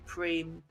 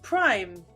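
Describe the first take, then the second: First: The vowel sounds like 'ee', as in 'preem'. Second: The vowel sounds like 'eye', as in 'prime'. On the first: This is the French pronunciation. The speaker calls it right. "it's actually meant to be prime" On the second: This is the anglicised pronunciation. The speaker calls it wrong. "I thought it was pronounced prime"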